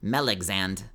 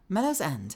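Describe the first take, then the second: First: The name is said as 'mel-ex-and'. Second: The name is said as 'mellow's end'. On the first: The speaker calls it wrong. "Usually T T S will be like Melexand" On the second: The speaker calls it right. "I prefer Mellow's End"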